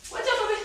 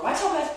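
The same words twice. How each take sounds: First: High pet voice. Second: Pet talk. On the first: To the dog crowding her plank, high sing-song baby talk. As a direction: coo it way up at the pup. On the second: Dog gets in the way. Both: Real, not acted.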